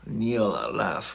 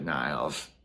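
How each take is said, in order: First: The surname is said as two syllables. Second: The surname is said as one syllable. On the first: The speaker calls it right. "But apparently it's" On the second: The speaker calls it wrong. "I called her Annika, Annika Niles in the last video, and I apologize"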